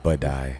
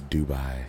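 First: The word begins with a 'b' sound. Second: The word begins with a 'd' sound. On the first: The speaker calls it wrong. "That's what you said" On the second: The speaker calls it right. "It's Dubai"

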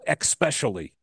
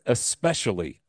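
First: The word begins with an 'ex' sound. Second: The word begins with an 'es' sound. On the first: The speaker calls it wrong. "No, it's not an EX word. There is no especially" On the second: The speaker calls it right. "It's especially, all right?"

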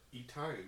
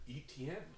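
First: The name is said as E-Tine. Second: The name is said as Etienne. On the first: The speaker calls it wrong. "as I used to say" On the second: The speaker calls it right. "It's ETN"

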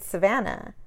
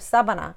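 First: The name is said with an English accent. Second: The name is said with a Spanish accent. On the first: "my cousin named his kid Savannah" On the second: "my aunt would call her Sabana"

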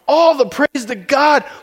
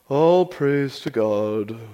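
First: The voice is lively and enthusiastic. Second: The voice is flat and unenthusiastic. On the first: The praise comes from amazement at something great. The speaker calls it right. "He is excited when he reads this" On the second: The praise is given politely without real feeling. The speaker calls it wrong. "we read it kind of like with a golf clap voice"

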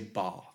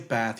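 First: The word is said with a British accent. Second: The word is said with an American accent. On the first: The speaker calls it right. "the Queen's or the Royal English. Like, ... you say bath" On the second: The speaker calls it wrong. "you don't say bath"

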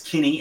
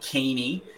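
First: The first vowel is short, as in 'kin'. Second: The first vowel is long, as in 'keen'. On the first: The speaker calls it right. "I just wanted to double check that it's Kinney" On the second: The speaker calls it wrong. "and not Keeney"

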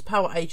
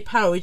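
First: It is said as two separate words. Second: It is said as a single joined word. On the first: "Power Age would be two different words to me" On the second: "I would say Power Age"

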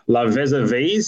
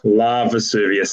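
First: The name ends in a single 'vees' syllable. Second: The name ends in two syllables, 'vee-us'. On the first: The speaker calls it wrong. "Is that how we're pronouncing it" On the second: The speaker calls it right. "Vesuvius, like Mount Vesuvius"

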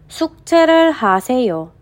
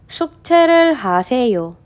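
No difference in how they are said.

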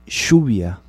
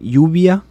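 First: It is said with a Uruguayan Spanish accent. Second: It is said with a Mexican Spanish accent.

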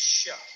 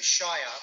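First: The word is said reduced, like sher. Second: The word is said fully, rhyming with fire. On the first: The word is part of a place name. "If it's put into something, then it's Shire" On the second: The word stands alone as a county. "we say Shire when it's by itself"

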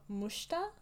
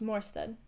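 First: The surname is said with Norwegian pronunciation. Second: The surname is said with English pronunciation.

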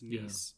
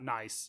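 First: It sounds unlike the English word 'nice'. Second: It sounds like the English word 'nice'. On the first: The speaker calls it right. "but I think it's Nice" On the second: The speaker calls it wrong. "It's not Nice. It's spelled like English Nice"

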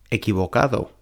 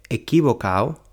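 First: The d in the ending is pronounced. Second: The d in the ending is dropped. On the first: The speaker calls it right. "en lugar de equivocado" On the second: The speaker calls it wrong. "se come la letra D"

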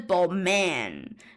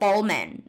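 First: The stress is on the second syllable. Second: The stress is on the first syllable. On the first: The speaker calls it right. "但是其实是Balmain，它是一个就是我觉得是一个小重音的问题" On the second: The speaker calls it wrong. "我第一个想法是想要念Balmain"

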